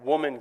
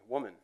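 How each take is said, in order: First: It is said in an aggressive tone. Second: It is said in a tender tone.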